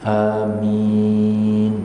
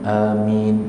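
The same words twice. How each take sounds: First: The word is said with a drawn-out vowel. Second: The word is said short and clipped. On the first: "amin panjang ha" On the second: "mula-mula pendek kan"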